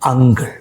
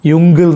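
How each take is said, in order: First: The word starts with an 'uh' sound. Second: The word starts with a 'yu' sound. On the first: The speaker calls it right. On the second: The speaker calls it wrong. "യുങ്കിൾ എന്നല്ല"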